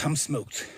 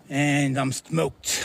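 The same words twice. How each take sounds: First: Said in the usual way. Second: Worn out, stretched slowly; slow, drawn out. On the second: Real, not acted. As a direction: drag out each word, spent.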